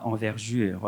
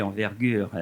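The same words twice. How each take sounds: First: Envergure with g softened to French j; quoted error, envergure with a j sound; mispronounced envergure. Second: Said in the usual way. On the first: Retold or imitated. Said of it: "on dit pas envergure". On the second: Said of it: "on dit envergure".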